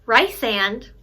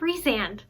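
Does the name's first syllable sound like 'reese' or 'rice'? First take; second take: rice; reese. First: The first syllable sounds like 'rice'. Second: The first syllable sounds like 'reese'. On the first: The speaker calls it wrong. "what's really gonna make me mad is hearing Rysand" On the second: The speaker calls it right. "instead of Rhysand"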